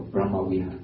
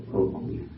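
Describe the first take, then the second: First: Brahma Vihara with an open 'ah' in Brahma; Brahma with open 'a'. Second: Brahma Vihara with Brahma said as 'Broh-ma'; Cambodian pronunciation. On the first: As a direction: say Brahma as 'BRAH-ma', then Vihara. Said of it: "what we call Brahma Vihara or". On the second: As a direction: round the first vowel of Brahma to 'oh'. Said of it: "In Cambodia". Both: Shown as a demonstration.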